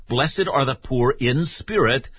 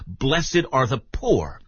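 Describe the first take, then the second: First: Said in the usual way. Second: "Blessed are the poor" said slowly, leaning on "poor"; slow, deliberate "Blessed are the poor"; slow, pointed quote. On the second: Shown as a demonstration. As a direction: linger on "poor" to mark what's missing. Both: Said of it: "Luke simply says".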